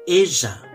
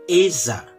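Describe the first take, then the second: First: The double L sounds like a zh sound. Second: The same.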